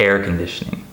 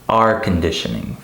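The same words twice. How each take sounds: First: The first word sounds like the word air. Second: The first word sounds like the letter R. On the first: The speaker calls it right. "when I say something like" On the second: The speaker calls it wrong. "I hear many of my students say"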